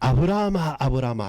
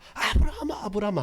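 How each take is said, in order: First: It is read plainly, without acting. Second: It is acted out as an urgent call.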